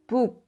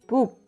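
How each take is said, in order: Both takes have the same delivery.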